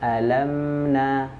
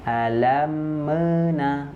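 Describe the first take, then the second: First: The m is held closed, then joined smoothly. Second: The m is released with a bounce. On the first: The speaker calls it right. "harusnya kan tahan dulu" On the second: The speaker calls it wrong. "kalau kita lepas terlebih dahulu, maka dia akan terpantul"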